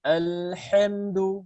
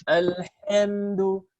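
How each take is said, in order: The two takes are said the same way.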